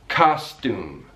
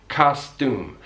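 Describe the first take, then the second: The two takes are said the same way.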